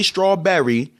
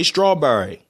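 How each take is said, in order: First: Said in the usual way. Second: STRAWBERRY ending like "burry"; Baltimore pronunciation. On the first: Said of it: "They wouldn't say strawberry". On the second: Shown as a demonstration. Showing viewers Baltimore speech, STRAWBERRY as "straw-burry". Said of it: "the way that somebody from Baltimore would say".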